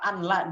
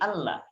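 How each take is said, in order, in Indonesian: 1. Bunyi n terdengar sebelum la. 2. Bunyi n menyatu menjadi l ganda. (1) "asalnya anla" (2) "jadi Allah"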